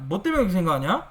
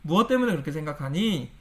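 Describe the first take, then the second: First: It is asked in a rough, confrontational tone. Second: It is asked in a soft, lowered, gentle tone. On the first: It sounds like picking a fight. The speaker calls it wrong. "이렇게 하면 싸우자는 거고" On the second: It invites the listener to open up. The speaker calls it right. "톤을 내려야 돼요. ... 표준어스럽게 해줘야"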